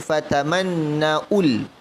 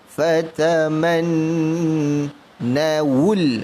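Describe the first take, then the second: First: A glottal stop comes before the final 'ul'. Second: A w sound comes before the final 'ul'. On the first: The speaker calls it wrong. "Jangan sebut Fataman Naul. Fataman Naul itu huruf hamzah" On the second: The speaker calls it right. "ni sebut wul, W U L"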